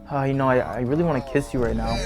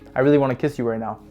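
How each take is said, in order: First: It is said hesitantly, with fillers and stumbling. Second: It is said directly and confidently.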